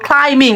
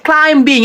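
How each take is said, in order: First: ক্লাইম্বিং with no b, "klai-ming"; smooth "klai-ming" for ক্লাইম্বিং; correct pronunciation. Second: ক্লাইম্বিং with audible b, "klaim-bing"; common mispronunciation. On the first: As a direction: keep the b of ক্লাইম্বিং silent. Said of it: "আপনারা উচ্চারণ করবেন". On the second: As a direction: hit the b in ক্লাইম্বিং. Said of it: "অনেকেই ভুল উচ্চারণ করি". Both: Shown as a demonstration.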